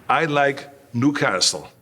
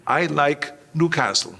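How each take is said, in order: First: Slow, careful repeat of "I like Newcastle", each word placed; a nervous newcomer echoing his cue slowly; hesitant repeat. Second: A lightly voiced Reg Park feeding the line "I like Newcastle"; whisper-prompt a friend, brisk and even. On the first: Retold or imitated. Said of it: "And I said".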